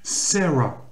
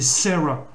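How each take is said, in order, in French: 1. Le prénom se dit avec des voyelles et des sons anglais. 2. Le prénom se dit avec des voyelles et des sons anglais.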